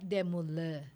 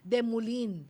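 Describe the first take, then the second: First: The name is said with French pronunciation. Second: The name is read with English pronunciation. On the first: The speaker calls it right. "Ang pronunciation na sa French is" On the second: The speaker calls it wrong. "Ang spelling niya uh, sa English is de Moulin. Pero hindi po ganun ang pronunciation nun"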